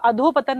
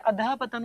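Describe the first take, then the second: First: The first word ends in an 'o' vowel. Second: The first word ends in 'a' with breathy 'h'. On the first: The speaker calls it wrong. "अधो पतन नहीं होता है" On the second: The speaker calls it right. "अधः पतन होता है"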